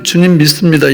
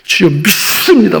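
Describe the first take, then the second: First: It is said in a normal, plain voice. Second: It is said in a harsh, rasping voice.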